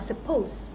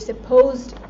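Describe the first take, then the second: First: The word ends without a t sound. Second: The word ends with a t sound. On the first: The speaker calls it wrong. "Not you are supposed" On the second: The speaker calls it right. "When I said supposed, I said it with ed"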